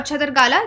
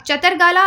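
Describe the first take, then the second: First: छतरगाला with an aspirated "chh" at the start; aspirated first sound. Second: चतरगाला with a plain unaspirated "ch" at the start; unaspirated first sound. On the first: Teacher offering students the other place-name pronunciation, छतरगाला with breathed "chh". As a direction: say छतरगाला with a puff of air on the opening "chh". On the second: Teacher offering students one possible place-name pronunciation, चतरगाला with plain "ch". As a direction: say चतरगाला starting on a light "ch", no puff of air. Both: Shown as a demonstration. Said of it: "जैसे भी आप इसको बोलें".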